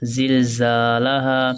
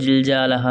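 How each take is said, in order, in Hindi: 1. शब्द की शुरुआत 'z' की ध्वनि से होती है। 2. शब्द की शुरुआत 'j' की ध्वनि से होती है। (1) "क्या पढ़ेंगे?" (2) "इसको दोस्तों जिलजालहा नहीं पढ़ेंगे"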